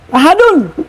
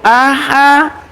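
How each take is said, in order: First: The word ends with an added -un ending. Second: The word ends on a bare final consonant. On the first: This is the full written form. "Tapi tulisannya apa?" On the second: This is how it is read when stopping. "Bacanya hada tuh"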